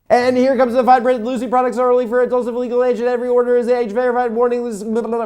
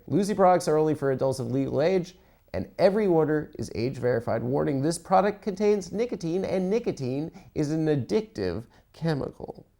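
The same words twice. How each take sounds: First: Rapid-fire disclaimer, pitched up; fast fine print. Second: Said in the usual way. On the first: Shown as a demonstration. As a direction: rattle off the legal text like an ad. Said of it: "I can't do the fast thing". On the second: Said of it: "I can't do it".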